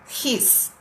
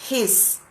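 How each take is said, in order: First: The word ends with an s sound. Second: The word ends with an s sound.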